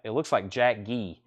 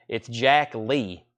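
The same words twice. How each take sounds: First: "Jack Gee" said with a hard G sound, as misread. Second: "Jack Lee" with a clear L, slow and deliberate; correct Jack Lee. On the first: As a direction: read "Gee" with a hard G, not L. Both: Shown as a demonstration.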